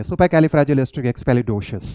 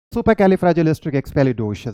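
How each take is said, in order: First: Supercalifragilisticexpialidocious said slowly in one flow; slow demo pronunciation. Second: Supercalifragilisticexpialidocious said slowly, every syllable clear; slow demo pronunciation. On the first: Teacher showing the finished word, slow careful pronunciation. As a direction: say it slowly, all together. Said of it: "आप इसे बोल पाएंगे". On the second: Teacher demonstrating to students, slow careful pronunciation. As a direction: draw out each syllable. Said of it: "pronounce करना है". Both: Shown as a demonstration.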